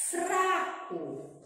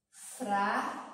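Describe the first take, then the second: First: Said in the usual way. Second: "Fraco" split into fra and co, long pause between; separando sílabas. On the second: Shown as a demonstration. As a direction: leave "fra" hanging before finishing "Fraco". ("Fraco" em duas sílabas, com pausa longa no meio) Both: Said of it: "vamos ter que separar as sílabas".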